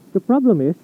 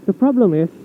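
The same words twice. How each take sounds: The two takes are said the same way.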